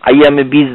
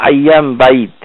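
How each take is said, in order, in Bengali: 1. শেষ শব্দটি 'beej' হিসেবে বলা হয়। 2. শেষ শব্দটি 'bayd' হিসেবে বলা হয়। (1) "বীজ বলে কোনো এখানে কিছু নাই, আইয়ামে বীজ না।" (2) "এটা কি বলা হয় আইয়াম বাইদ"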